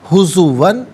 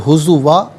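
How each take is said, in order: First: The word ends with an n sound. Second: The word ends with a long vowel. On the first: The reading continues without stopping. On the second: The reader stops at this word.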